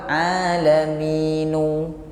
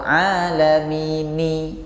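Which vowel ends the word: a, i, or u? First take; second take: u; i. First: The word ends with a u vowel. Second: The word ends with an i vowel. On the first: "Lalu dirubah alaminu" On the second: "atau alamini"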